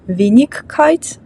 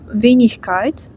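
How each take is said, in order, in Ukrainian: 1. Середній звук — твердий «g». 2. Середній звук — м'яке «ch». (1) "Ми не кажемо «Wenigkeit», ... звучить надто жорстко" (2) "В такому випадку ми кажемо «ichkeit»"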